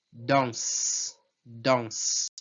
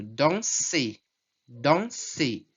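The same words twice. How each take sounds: First: Danse said lower, ending on the S; French stem demo. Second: Danser with the final er sounded as é; French infinitive demo. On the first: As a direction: drop the er and stop on the S of danse. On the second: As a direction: model danser twice. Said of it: "qual é a última consoante". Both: Shown as a demonstration.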